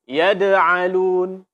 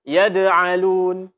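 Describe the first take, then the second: No difference in how they are said.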